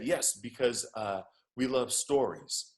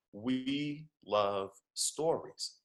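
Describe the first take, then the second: First: Lightly imitated Nigerian accent; bad Nigerian accent. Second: Very slow, word by word; slow emphasis. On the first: Uber driver confirming to his passenger, bad Nigerian accent. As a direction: answer in an amateur Nigerian accent. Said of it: "I'm doing a horrible Nigerian accent". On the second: Real, not acted. Speaker driving home the driver's lesson, slow emphasis. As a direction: draw out each word to land the point.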